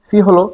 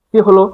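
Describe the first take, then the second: The two takes are said the same way.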